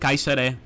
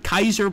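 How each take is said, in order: First: The word ends with an extra vowel. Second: The word ends without a final vowel. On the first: The speaker calls it right. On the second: The speaker calls it wrong. "probably not"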